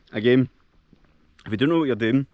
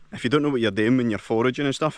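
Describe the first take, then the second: First: Talking with a mouth full of berries; words round a mouthful of fruit. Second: Said in the usual way. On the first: Real, not acted. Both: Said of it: "shouldn't speak with my mouth full".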